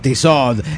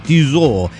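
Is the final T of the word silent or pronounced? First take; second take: pronounced; silent. First: The final T sound is pronounced. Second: The final T sound is silent. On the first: The speaker calls it wrong. "y no Tissot" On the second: The speaker calls it right. "en francés no se lee la última letra de las palabras"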